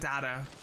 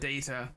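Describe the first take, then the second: First: It is said with an American pronunciation. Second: It is said with a British pronunciation. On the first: The speaker calls it wrong. "how Americans call it" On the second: The speaker calls it right. "we call it data. The proper way, of course"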